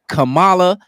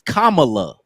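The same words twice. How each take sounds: First: The name is said in a casual slang pronunciation. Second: The name is said in its original pronunciation. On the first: It sounds like a name from the neighborhood. "The way we say it" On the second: This is how the name is really said. "Her real name is"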